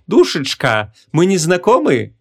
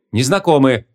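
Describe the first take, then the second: First: Sweet-talking sorcerer, lilting up high; sugary flirting. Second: Mildly hesitant, short answer; unsure reply. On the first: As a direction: ask it coyly, drawing out the question. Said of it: "с очень сладеньким голосом". (слащавый игривый вопрос) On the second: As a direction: answer a little uncertainly. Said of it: "неуверенно ответила Ванесса". (слегка неуверенный ответ) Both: A narrator's reading.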